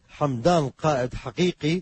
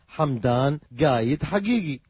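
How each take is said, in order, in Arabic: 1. القاف صوت q عميق من الجزء الخلفي للّسان. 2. القاف صوت g قاسٍ. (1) "مثل" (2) "يلفظون القاف جئ"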